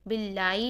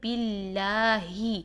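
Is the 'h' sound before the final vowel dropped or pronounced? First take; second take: dropped; pronounced. First: The 'h' before the final vowel is dropped. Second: The 'h' before the final vowel is clearly pronounced. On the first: The speaker calls it wrong. "बिल्लाई नहीं करेंगे" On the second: The speaker calls it right. "हा को हम प्रोमिनेंट करेंगे"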